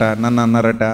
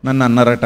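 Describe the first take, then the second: First: అన్నారట leaned on, నన్ను unstressed; stress on అన్నారట. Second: నన్ను pushed forward, అన్నారట trailing off low; stress on నన్ను. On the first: Preacher to congregation, stress on అన్నారట. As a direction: hit అన్నారట, keep it low and soft. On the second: Preacher to congregation, stress on నన్ను. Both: Shown as a demonstration.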